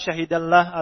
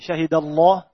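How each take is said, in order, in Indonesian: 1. Bunyi l dalam Allah tipis dan ringan. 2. Bunyi l dalam Allah tebal dan berat. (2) "Tapi syahidallah"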